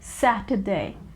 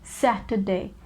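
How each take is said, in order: The two takes are said the same way.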